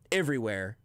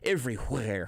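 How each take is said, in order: First: The 'wh' sound is plain, without a breathy h. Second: The 'wh' sound has a strong breathy h. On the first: "which I think probably sounds right" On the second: "hitting the H"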